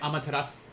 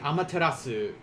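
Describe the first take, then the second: First: The final u is nearly silent. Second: The final u is clearly voiced. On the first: "they may sometimes say" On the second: "instead of saying"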